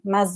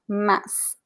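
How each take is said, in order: First: The final consonant sounds like z, linked on. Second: The final consonant sounds like s, alone. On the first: "I pronounce a little bit like like Z" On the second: "it sounds like an S"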